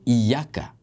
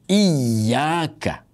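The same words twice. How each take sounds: First: The y sound is light and single. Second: The y sound is pressed and doubled. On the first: It means the sun. The speaker calls it wrong. "Tidak boleh" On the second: It means only to you. The speaker calls it right. "harus ditekan"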